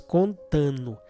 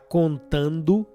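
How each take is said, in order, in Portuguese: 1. A terminação é falada como nu, sem d. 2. A terminação é falada com som de d. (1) "pronunciada como nu" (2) "Em vez de falar contando"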